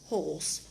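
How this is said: The r sound after the vowel is dropped. "British English, say horse and horse without the R"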